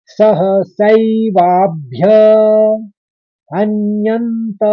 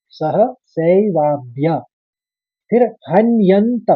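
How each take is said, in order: First: सह सैवाभ्य हन्यन्त drawn out, higher; slow recitation. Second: सह सैवाभ्य ends on भ्य, then हन्यन्त apart; split after bhya. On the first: Teacher repeating the third quarter for students. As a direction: recite सह सैवाभ्य हन्यन्त slowly with nasal ring. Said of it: "फिर से सुनिए". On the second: Teacher showing where to break the word. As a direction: stop cleanly at भ्य before हन्यन्त. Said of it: "भ्य में ही खत्म कर देंगे". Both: Shown as a demonstration.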